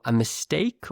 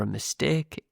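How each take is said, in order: First: Standard British "mistake" with a gliding "ay"; standard British accent. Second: Northern English "mistake" with a pure, unglided "ay"; northern English accent. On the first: Teacher gives learners both versions, this one standard British. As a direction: say "mistake" with a standard British diphthong in the second syllable. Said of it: "use the standard British pronunciation".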